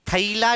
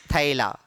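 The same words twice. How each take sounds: First: "थैला" as tha-ee-la, ee in the middle; old-style "tha-ee-la" for थैला; wrong, old pronunciation. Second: "थैला" with open ae, much lower pitched; correct modern pronunciation. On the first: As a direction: say थैला with a split a-ee vowel. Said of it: "नहीं". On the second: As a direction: say थैला as "thae-la", no ee glide. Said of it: "थैला नहीं". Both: Shown as a demonstration.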